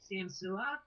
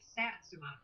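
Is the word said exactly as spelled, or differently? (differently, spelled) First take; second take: differently; spelled. First: It is said differently from its spelling. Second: It is said letter by letter as spelled. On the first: This is how locals say the town's name. The speaker calls it right. "it's actually pronounced Samsua" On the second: This is how outsiders read the name from its spelling. The speaker calls it wrong. "we keep pronouncing it Satsuma because it's S A T S U M A"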